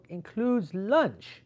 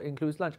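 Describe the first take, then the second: First: High, very drawn-out disbelief; incredulous echo. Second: Said in the usual way. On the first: Retold or imitated. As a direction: echo it back slowly, pitched up, appalled. His incredulous echo of organizer.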